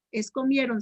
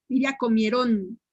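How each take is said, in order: First: Comieron stressed on the middle syllable, no accent on the end; teacher modelling the correct stress. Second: Comieron stressed on the final O, like comierón; teacher demonstrating a wrong accent. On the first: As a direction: say comieron the right way, as a grave word. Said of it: "Si dicen comieron". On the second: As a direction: show the mistake, stressing the last syllable. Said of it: "Si le ponen la O". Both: Shown as a demonstration.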